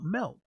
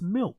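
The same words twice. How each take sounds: First: The word is said with an odd, imitated pronunciation. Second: The word is said with its standard pronunciation. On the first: The speaker calls it wrong. "not milk. Why are you saying it that way?" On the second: The speaker calls it right. "Just pronounce it properly. It's milk"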